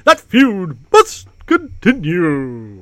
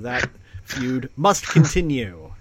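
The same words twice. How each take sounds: First: It is said in a put-on character voice. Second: It is said in the speaker's normal voice. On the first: The speaker calls it right. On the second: The speaker calls it wrong.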